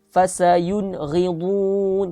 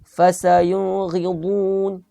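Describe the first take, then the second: Both takes have the same delivery.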